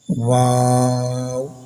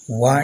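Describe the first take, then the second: First: The name ends with a closing w sound. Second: The name ends on an open vowel. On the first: The speaker calls it right. "So read wow" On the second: The speaker calls it wrong. "Wa is wrong pronunciation"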